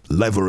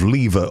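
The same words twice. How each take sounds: First: Lever is said with an American pronunciation. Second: Lever is said with a non-American pronunciation.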